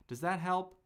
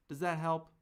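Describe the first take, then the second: No difference in how they are said.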